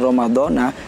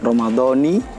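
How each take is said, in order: First: The word ends with an 'a' vowel. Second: The word ends with an 'i' vowel. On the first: The speaker calls it wrong. "itu salah secara kaidah i'rab" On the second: The speaker calls it right. "ramadhaninya dibaca kasroh bukan fathah"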